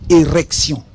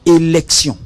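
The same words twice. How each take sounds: First: Érection, the R sounded clearly; érection articulated with a clear R. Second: Élection, the L sounded clearly; élection articulated with a clear L. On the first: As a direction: say érection so the R is unmistakable. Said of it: "Quand je dis érection". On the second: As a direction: say élection so the L is unmistakable. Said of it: "c'est le R". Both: Shown as a demonstration.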